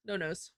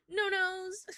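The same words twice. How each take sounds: First: Said in the usual way. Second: No nose, jumping up high and louder; high decisive repeat. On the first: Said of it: "I'm like". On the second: Real, not acted. Streamer declaring the drawing will skip the nose, high and loud. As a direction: sing it out up high.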